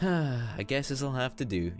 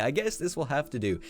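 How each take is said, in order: First: It is said with an audible sigh. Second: It is said plainly, without a sigh.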